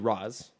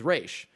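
First: The name is said the Arabic way. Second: The name is said the Hebrew way. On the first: "the Arabic pronunciation would be Roz" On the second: "the Hebrew pronunciation, which is Ra's"

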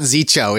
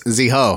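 First: The middle consonant is a 'ch' sound. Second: The middle consonant is an 'h' sound. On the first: The speaker calls it wrong. "it's not Zicho, ... in like English mind is a CH" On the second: The speaker calls it right. "it's Ziho, right?"

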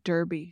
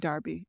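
First: The first vowel sounds like 'er'. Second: The first vowel sounds like 'ar'. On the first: "if Americans are confused right now, you would say fresh note Derby" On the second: "we say Darby over here in Ireland and the UK"

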